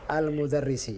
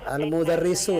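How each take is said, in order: First: The word ends with an 'ee' vowel. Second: The word ends with an 'oo' vowel. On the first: The speaker calls it right. "Yang benar apa?" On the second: The speaker calls it wrong.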